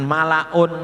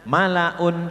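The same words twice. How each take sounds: First: The vowel before n is skewed and slanted. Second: The vowel before n is short and clear. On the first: The speaker calls it wrong. "ini juga jangan sampai miring, jangan malaun" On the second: The speaker calls it right. "Bacaannya jangan memanjang, harus pendek"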